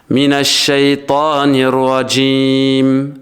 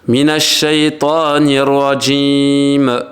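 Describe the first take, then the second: The two takes are said the same way.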